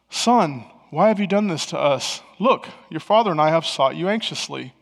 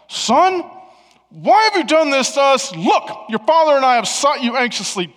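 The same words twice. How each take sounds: First: It is said in a calm, plain tone. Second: It is said in an upset, exasperated tone.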